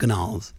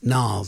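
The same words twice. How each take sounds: First: The initial G is pronounced. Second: The initial G is silent. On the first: The speaker calls it wrong. "I always pronounce the G" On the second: The speaker calls it right. "but it's Gnarls"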